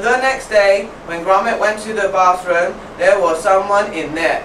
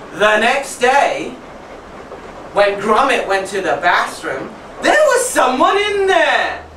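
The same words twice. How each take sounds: First: It is read in a flat, dull way. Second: It is read in a lively, expressive way. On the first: The speaker calls it wrong. "Is that interesting? No" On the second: The speaker calls it right. "So I might do it like that to give them an idea"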